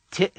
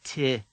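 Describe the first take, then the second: First: Ti snapped shut at the end; abrupt cut-off. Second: Ti with the vowel allowed to trail off; open ending. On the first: Teacher repeats the second word, ti stopped abruptly. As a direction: cut ti off short. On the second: Teacher repeats the first word, Ti ending open. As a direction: leave Ti open, no sharp stop. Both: Shown as a demonstration. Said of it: "Hear the difference".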